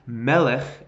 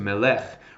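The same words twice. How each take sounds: First: The stress is on the first syllable. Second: The stress is on the last syllable. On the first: The speaker calls it right. "That pushes the accent away from the end to the front. So this is pronounced melech" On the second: The speaker calls it wrong. "as opposed to"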